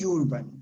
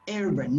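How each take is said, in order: First: The word begins with a 'you' sound. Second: The word begins with a plain 'er' sound. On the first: The speaker calls it wrong. "not urban" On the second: The speaker calls it right. "letter U sometimes is pronounced like you, but some others is different"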